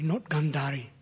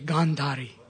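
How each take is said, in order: First: The first vowel is short. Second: The first vowel is long. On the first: The speaker calls it wrong. "not Gandhari. Because Gandhari means something else" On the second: The speaker calls it right. "It's a long A"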